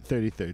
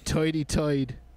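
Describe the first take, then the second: First: It is said in a plain standard American accent. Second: It is said in a Brooklyn-style New York accent.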